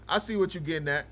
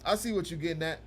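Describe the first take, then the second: No difference in how they are said.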